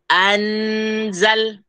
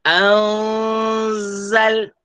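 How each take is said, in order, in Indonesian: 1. Bunyi n diucapkan sebagai konsonan yang jelas. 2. Bunyi n tersembunyi dalam dengung sengau. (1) "bacaan yang salah, tidak tepat, tidak betul" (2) "Kita tidak sebut an, tidak"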